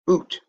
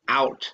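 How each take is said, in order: First: The word is said in a put-on Canadian accent. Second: The word is said in a plain American accent.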